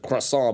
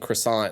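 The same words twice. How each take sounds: First: It is pronounced the British way. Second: It is pronounced the American way. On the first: "instead of croissant" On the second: "Americans for saying croissant"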